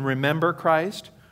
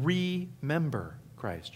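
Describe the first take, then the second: First: The first syllable of remember is unstressed. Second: The first syllable of remember is stressed. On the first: To recall Christ. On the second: To put the body of Christ back together.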